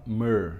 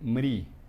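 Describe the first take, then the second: First: The r is a vowel, sounding like 'mer'. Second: The r is followed by an i vowel. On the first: The speaker calls it right. "Então a gente fala mer, né, em sânscrito" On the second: The speaker calls it wrong. "Os indianos hoje em dia eles falam mri"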